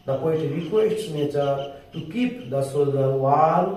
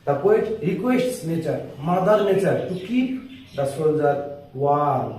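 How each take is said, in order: First: The whole sentence in one unbroken, very slow line; slow full read. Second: Phrase by phrase with pauses, pitched up on the key words; slow chunked dictation. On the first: Teacher reading the whole line back to students, slow and even. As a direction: read it through in one breath, slowly. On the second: Teacher breaking the line into pieces for students, slow. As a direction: dictate each piece separately. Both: Shown as a demonstration. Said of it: "আস্তে আস্তে বলছি".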